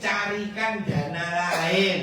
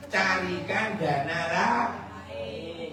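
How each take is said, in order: First: Diulang lebih keras dan tegas; nasihat keras dan tegas. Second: Nasihat pelan. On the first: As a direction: tekankan perintahnya dengan keras. (ustaz mengulang nasihat, lebih keras dan tegas) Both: Real, not acted. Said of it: "nasihat tegas diulang".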